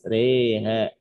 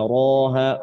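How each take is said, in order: First: The r is thin, with the vowel toward e. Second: The r is thick, with an open a. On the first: "jadi tipis" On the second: "roha tebal"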